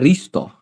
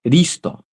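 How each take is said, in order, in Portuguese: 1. A palavra começa com som de R. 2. A palavra começa com som de R.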